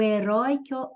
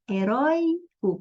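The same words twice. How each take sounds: First: Said in the usual way. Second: "heróico" split into he-rói-co; syllable by syllable. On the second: Shown as a demonstration. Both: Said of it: "separando as sílabas".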